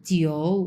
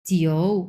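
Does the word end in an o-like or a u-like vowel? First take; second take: o-like; o-like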